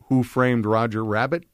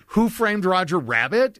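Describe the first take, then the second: First: It is said plainly, without attitude. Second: It is said with an exaggerated, snarky attitude.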